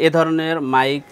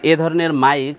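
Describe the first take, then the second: No difference in how they are said.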